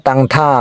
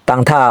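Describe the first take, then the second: No difference in how they are said.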